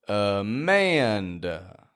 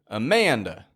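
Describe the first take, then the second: First: The name is said slowly. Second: The name is said quickly. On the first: "And if we say it slowly" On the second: "If we say it quicker"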